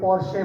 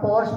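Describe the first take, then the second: First: The word ends in an 'e' vowel. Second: The word ends without a final vowel. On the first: "कोई कोई पोर्शे बोलता है" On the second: "हम पोर्श बोलता है"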